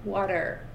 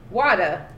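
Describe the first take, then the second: First: "Water" ending in a careful R; held-cheek R. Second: "Water" ending in an open "ah"; usual R-less way. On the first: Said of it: "Holding the cheeks so they don't". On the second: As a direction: let "Water" drop its R, wah-tuh. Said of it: "what they normally go to do". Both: Shown as a demonstration.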